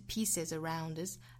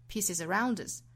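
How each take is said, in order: First: The phrase is said at a normal pace. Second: The phrase is said quickly.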